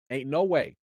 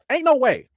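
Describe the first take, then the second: First: Said in the usual way. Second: Higher and louder, flatly refusing; emphatic disbelief. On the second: Real, not acted. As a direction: shut the idea down hard.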